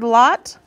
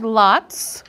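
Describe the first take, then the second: First: "lot" ending on a t, no s; word without ending. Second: "lots" with a clear final ts; word with S ending. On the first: Teacher showing the base word, "lot" ending on t. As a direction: say "lot" with nothing after the t. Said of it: "I see an S on". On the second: Teacher showing what the S adds, "lots" ending in ts. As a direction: say "lots" sounding the s after the t. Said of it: "It makes it the word". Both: Shown as a demonstration.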